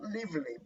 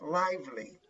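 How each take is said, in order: First: The first part sounds like the verb live. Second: The first part does not sound like live. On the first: The speaker calls it wrong. "It's not lively, ... Live is the verb live" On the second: The speaker calls it right. "but lively"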